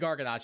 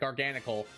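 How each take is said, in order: First: The name ends with a 'chee' sound. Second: The name ends with a 'kul' sound. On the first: The speaker calls it wrong. "I keep wanting to say Garganacci" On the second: The speaker calls it right. "I'll say it correctly"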